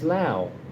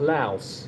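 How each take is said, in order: First: The word ends without an s sound. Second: The word ends with an s sound. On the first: The speaker calls it right. "Lao is the is the is the proper way to say it" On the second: The speaker calls it wrong. "It's not Laos"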